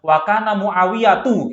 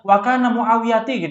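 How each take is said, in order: First: The last word ends with an 'u' vowel. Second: The last word ends with an 'i' vowel. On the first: The speaker calls it right. "Yang benar seperti itu" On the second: The speaker calls it wrong. "Mereka bacanya wakana muawiyati gitu"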